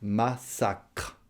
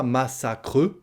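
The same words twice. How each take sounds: First: "massacre" split as "ma-sacr", no final vowel; "massacre" ending on a released "cr"; last syllable pronounced. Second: "massacre" with an added "euh" at the end; "massacre" rising onto a voiced final "e"; final E pronounced. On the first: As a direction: sound the "cr" of "massacre" without an added "e". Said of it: "On la prononce". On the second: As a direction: lean on a full final vowel, "massacreu". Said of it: "on ne prononce pas le E". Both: Shown as a demonstration.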